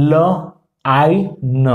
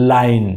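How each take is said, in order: First: ল, আই, ন isolated, with pauses between; phonetic sounding out. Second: Said in the usual way. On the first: Shown as a demonstration. Teacher showing pupils how line is built, each sound separate. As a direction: sound out ল... আই... ন one by one. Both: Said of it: "phonetic sound অনুসারে মিলাই".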